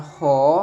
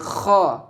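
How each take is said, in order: First: It starts with a smooth, breathy h sound. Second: It starts with a rough, rasping throat sound. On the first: The speaker calls it wrong. "bukan ho" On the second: The speaker calls it right. "tapi kho"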